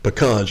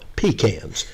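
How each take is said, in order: First: It is said without a Southern accent. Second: It is said in a Southern accent.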